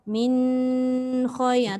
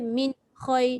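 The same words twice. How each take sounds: First: The nasal n sound is held too long. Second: The nasal n is cut off and sounds hard. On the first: "kalau kita baca terlalu lama dekat dengung nun tu" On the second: "dia jadi keras"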